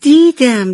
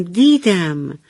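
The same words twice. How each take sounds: First: High, loud gleeful first take; laughing reply. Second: Said in the usual way. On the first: Acted. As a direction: burst out laughing on the word. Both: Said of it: "ابر کوچولو خندید و گفت".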